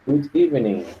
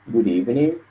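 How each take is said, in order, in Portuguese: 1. O d é solto separadamente antes de evening. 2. O d se junta a evening, soando como um r. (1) "está sendo apenas é um pouco mais formal" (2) "você pode juntar tudo"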